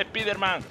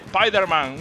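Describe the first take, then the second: First: "Spiderman" with a Spanish ee, SPEE-der-man; "Spiderman" read the Spanish way, first syllable "spi"; Spanish-style Spiderman. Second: "Spiderman" with an English eye, SPY-der-man; "Spiderman" drawn out with an English long i; English-style Spiderman. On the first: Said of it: "pues no se dice Spiderman". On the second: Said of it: "Se dice Spiderman". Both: Shown as a demonstration.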